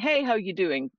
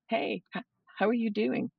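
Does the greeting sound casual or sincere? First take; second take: casual; sincere. First: It is a quick, offhand greeting. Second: It is a slow, caring greeting.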